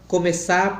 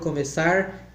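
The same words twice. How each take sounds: First: The final R is dropped. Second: The final R is pronounced. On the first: This is the rural caipira way of speaking. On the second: This is the standard way of speaking.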